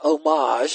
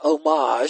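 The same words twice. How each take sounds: First: It is pronounced the French way. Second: The same.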